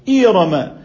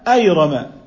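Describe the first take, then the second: First: The first vowel is a front 'i'. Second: The first vowel is an open 'a'. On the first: "بكسرها" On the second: "بفتح الهمزة"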